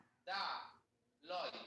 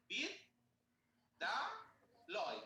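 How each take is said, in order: First: বিদ্যালয় slowly with a break after বিদ; syllable by syllable. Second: বিদ্যালয় stretched very slowly, each syllable apart. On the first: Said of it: "এর বেশি তো যেতে পারছি না". (বিদ্যালয় ধীরে, বিদ-এর পর থেমে) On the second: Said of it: "যতই চেষ্টা করি আমরা দেখো বিদ". (বিদ্যালয় খুব ধীরে অক্ষর ভাগ করে) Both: Shown as a demonstration.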